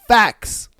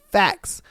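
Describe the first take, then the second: First: Whisper. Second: Said in the usual way. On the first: Real, not acted. Host agreeing with his guest, whispered Facts. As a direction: breathe the word Facts as a whisper.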